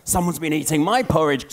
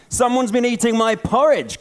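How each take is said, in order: First: Mama bear, voiced lightly close to plain; a hint of mama bear's complaint. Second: A higher, louder mock growl from papa bear; papa bear roaring about his porridge, half-hearted. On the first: Mama bear notices her porridge eaten, lightly voiced. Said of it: "said the mama bear". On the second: Papa bear finds his porridge eaten, mock growl. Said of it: "growled the papa bear".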